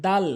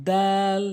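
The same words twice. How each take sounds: First: Short দাল as in everyday Bengali; a brief, casual দাল; wrong pronunciation. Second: দাল drawn out on a level note; tongue tip at the front-tooth roots for a long দাল; correct pronunciation. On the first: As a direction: say দাল quickly with a plain vowel. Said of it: "ভুল উচ্চারণ". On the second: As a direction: stretch the vowel of দাল. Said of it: "সঠিক উচ্চারণ হচ্ছে". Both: Shown as a demonstration.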